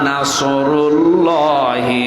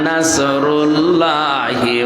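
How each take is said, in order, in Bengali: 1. s ধ্বনিটি ভারী, ঠোঁট গোল করে বলতে হয়। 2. s ধ্বনিটি সাধারণ ও হালকা। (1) "এখানে সোয়াদ মুখ গোল করে বলবেন" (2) "সবাই এভাবে বলবে"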